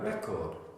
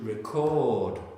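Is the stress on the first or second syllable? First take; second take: first; second. First: The stress is on the first syllable. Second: The stress is on the second syllable. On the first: It is a noun. "In the noun, where's the stress? The first one" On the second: It is a verb. "Verb? Second one"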